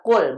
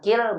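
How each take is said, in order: First: The first consonant takes the vowel u. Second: The first consonant takes the vowel i. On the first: The speaker calls it right. "amarnya kul" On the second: The speaker calls it wrong. "bukan kil"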